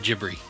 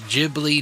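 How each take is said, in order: First: It starts with a J sound and has R. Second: It starts with a J sound and has L. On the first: "the G H makes a soft J sound, J, and the B L I in Japanese phonetics makes a B R sound" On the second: "in Japan they pronounce it with a soft G, which is a J sound"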